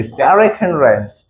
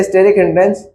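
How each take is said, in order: First: "स्टेरिक हिंड्रेंस" in a stylised accent, broad open vowels; stylised pronunciation. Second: Said in the usual way. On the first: Shown as a demonstration. Teacher showing students the term said in style, stylised "स्टेरिक हिंड्रेंस". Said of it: "style में कहने के लिए बोल दिया". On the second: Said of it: "हम लोगों ने बस स्टाइल में कहने के लिए".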